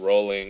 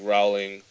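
First: The first syllable sounds like 'roll'. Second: The first syllable does not sound like 'roll'. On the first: The speaker calls it right. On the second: The speaker calls it wrong.

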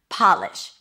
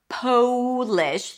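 First: The first vowel is a short O. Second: The first vowel is a long O. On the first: It means to make something shine. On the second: It means from Poland.

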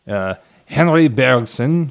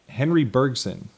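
First: The name is said with French-like pronunciation. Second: The name is said with English-like pronunciation. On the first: The speaker calls it right. "That sounds much more French" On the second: The speaker calls it wrong. "That doesn't sound very French"

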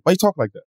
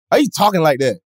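First: It is said with a slight New York accent. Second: It is said with a rural Southern country accent. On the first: The speaker calls it wrong. "this sounds a little New York" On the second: The speaker calls it right. "Let me put the country in it"

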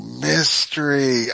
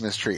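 First: It is said slowly and clearly. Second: It is said quickly, run together.

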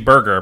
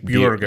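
First: The vowel is an American 'er' sound. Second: The vowel is a rounded German 'ü' sound. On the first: "In America, it would be burger" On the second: "but I think it's Bürger"

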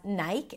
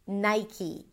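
First: It is said with a Hebrew pronunciation. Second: It is said with an English pronunciation.

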